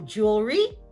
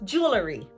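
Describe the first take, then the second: First: The word is said with two syllables. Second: An extra schwa is added: three syllables. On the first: "This is a two-syllable word"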